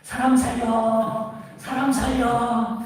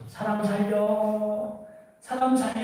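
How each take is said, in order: First: Higher, slow half-sung call for help; mock cry of help again; storyteller imitating a man shouting for rescue, pitched up. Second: Mock cry of help from the cliff; storyteller imitating a man calling for rescue, pitched up. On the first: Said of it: "다시 소리를 지르죠". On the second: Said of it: "소리를 지르죠".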